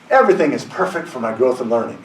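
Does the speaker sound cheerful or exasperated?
cheerful. It is said in a cheerful, contented tone. Life is going well. "when things are going well"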